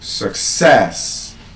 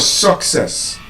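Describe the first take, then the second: First: The stress is on the second syllable. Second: The stress is on the first syllable. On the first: The speaker calls it right. "the stress becomes passed on to the second syllable" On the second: The speaker calls it wrong. "instead of success"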